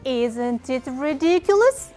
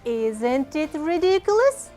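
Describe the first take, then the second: Both takes have the same delivery.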